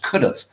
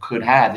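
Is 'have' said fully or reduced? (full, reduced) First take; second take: reduced; full. First: Have is reduced so it sounds like of. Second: The word have is said in full.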